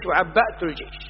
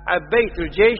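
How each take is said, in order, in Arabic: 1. الصامت بعد b هو همزة. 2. الصامت بعد b هو y. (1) "وإن قلت في الاثنين بالهمزة جاز" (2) "فإن قلت في الاثنين يائيا جاز"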